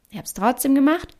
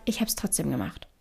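First: Said in the usual way. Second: Soft whispered confession, barely voiced. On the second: Shown as a demonstration. Podcaster whispering that she did it anyway, voiceless whisper. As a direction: breathe it like a secret. Repeated line, whispered first take.

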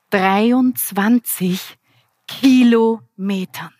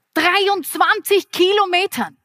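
First: Very slow, drawn out. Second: Dreiundzwanzig thrown out high and bright; excited exclamation. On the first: Trainer revealing the result to the audience, very slow and drawn out. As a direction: stretch each syllable very slowly. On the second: Trainer repeating the result to the audience, higher and excited. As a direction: exclaim the number higher, with a falling end. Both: Shown as a demonstration.

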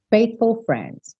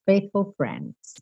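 First: "Faithful friends" slow and careful; slow pronunciation demo. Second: Quiet repeat. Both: Shown as a demonstration. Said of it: "pro F".

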